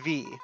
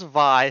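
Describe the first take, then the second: First: The name is said with an 'ee' vowel. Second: The name is said with an 'eye' vowel. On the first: The speaker calls it right. "That is how the name is pronounced" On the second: The speaker calls it wrong. "I thought it was Vi for the longest time"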